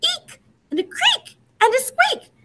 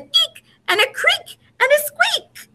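First: Very high, squeaking every word; squeaky mouse voice. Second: High, squeaky voice for the little noises. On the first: Shown as a demonstration. Reader leading children to repeat, even higher and squeakier. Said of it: "Can you say it?". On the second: A narrator's reading. Reader to children, squeaking the mouse noises high. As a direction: make it sound like tiny mice.

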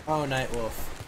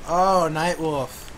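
First: Softer mock lament. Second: Slow mock lament.

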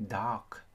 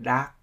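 First: "dark" closed with an audible k; dark with a clear final k; final K pronounced. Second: "dark" with the final k missing; dropped final K. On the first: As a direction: release the K at the end of "dark". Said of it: "cố gắng phát âm âm K". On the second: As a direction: cut the K off "dark", like "da". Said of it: "là chúng ta không nói âm K". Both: Shown as a demonstration.

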